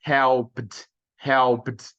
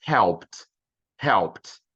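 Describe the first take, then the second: First: "Helped" as one syllable, helpd; "Helped" with a voiced d straight after p; wrong D ending. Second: "helped" as one syllable, helpt; "helped" with p running straight into t; correct T ending. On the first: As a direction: cut the e in "Helped" but finish on a d. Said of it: "eu corto o som do E". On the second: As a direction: end "helped" on a crisp voiceless t. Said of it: "Também não, vou falar". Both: Shown as a demonstration.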